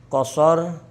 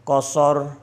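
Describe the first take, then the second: The two takes are said the same way.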